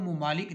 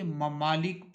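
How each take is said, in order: First: ممالک said as mu-maa-lik, with u in the first syllable; the mispronounced ممالک, mu-maa-lik, first vowel u; ممالک as mumaalik, the common mistake; wrong pronunciation. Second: ممالک said as ma-maa-lik, with a short a in the first syllable; the correct ممالک, ma-maa-lik, first vowel a; ممالک as mamaalik, taught clearly; correct pronunciation. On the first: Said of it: "اس کو ہم ممالک نہیں پڑھیں گے". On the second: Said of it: "ممالک پڑھیں گے". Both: Shown as a demonstration.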